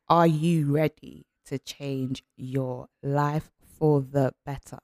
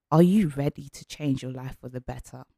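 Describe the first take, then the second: First: Slow, weighted question; slow it down so it sinks in; slow emphasis. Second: Said in the usual way. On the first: Shown as a demonstration. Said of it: "repeated slowly". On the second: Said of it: "question first take".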